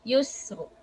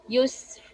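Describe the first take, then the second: First: Yusr said with a heavy ra; the ra in Yusr full-mouthed. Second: Yusr said with a light ra; the ra in yusr thin, empty mouth. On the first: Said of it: "the first one is heavy". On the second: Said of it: "the second one is light". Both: Shown as a demonstration.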